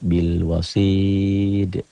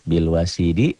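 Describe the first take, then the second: First: The phrase stops on the final consonant. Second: The phrase ends with a final vowel. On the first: This is how it is read when stopping. "cara bacanya" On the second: This is the form as written.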